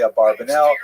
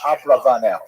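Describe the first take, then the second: First: The second syllable is pronounced 'bar'. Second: The second syllable is pronounced 'rav'. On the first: This is the common traditional-school pronunciation. "if you go to yeshiva, they'll say Abarbanel" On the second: This is likely how the man himself said it. "probably correct is Abravanel"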